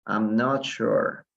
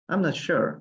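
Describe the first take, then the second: First: Each word slow and even, for the class; slow it right down so they can copy; teacher demo at half speed; slow model phrase. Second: Said in the usual way. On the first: Shown as a demonstration. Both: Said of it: "Utilicen bastante esta, eh, esta frase".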